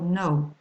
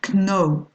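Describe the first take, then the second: First: The K at the start is silent. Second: The K at the start is sounded. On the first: The speaker calls it right. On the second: The speaker calls it wrong.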